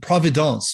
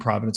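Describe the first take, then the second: First: The word is said with a French-style pronunciation. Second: The word is said with a plain English pronunciation.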